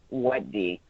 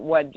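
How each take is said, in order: First: It is said sleepily and softly. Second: It is said hard and sharply.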